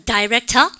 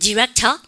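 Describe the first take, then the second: First: The first syllable sounds like 'dye'. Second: The first syllable sounds like 'dih'. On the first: This is how the British say it. "영국 애들이에요" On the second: This is how Americans say it. "미국 애들이에요"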